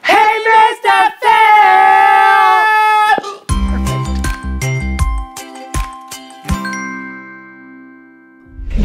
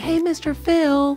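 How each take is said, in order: First: It is said at a louder volume. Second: It is said at a softer volume.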